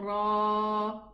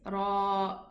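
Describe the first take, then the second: First: The word ends on an open vowel. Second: The word ends with a glottal stop. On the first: This is how the letter is read in the Quran. "we don't say the Hamza" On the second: This is the full name of the letter. "The Ra here has a Hamza in the name of the letter"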